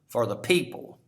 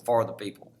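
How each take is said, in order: First: The stress is on the word people. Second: The stress is not on people.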